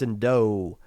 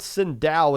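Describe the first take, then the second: First: The name ends with a plain 'o' sound. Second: The name ends with an 'ow' sound. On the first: The speaker calls it right. "It's Sindo" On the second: The speaker calls it wrong. "Sindao is not how it's pronounced"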